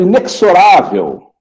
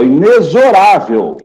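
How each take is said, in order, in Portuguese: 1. O x não é pronunciado como z. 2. O x é pronunciado como z. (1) "Eu vejo muita gente falando inexorável. Não, pessoal" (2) "O X tem som de Z"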